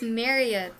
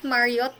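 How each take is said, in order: First: The name is said with an American accent. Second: The name is said with a Bisaya accent. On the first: The speaker calls it right. "it's Marriott ... Marriott is an American name" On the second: The speaker calls it wrong. "it's not Marriott"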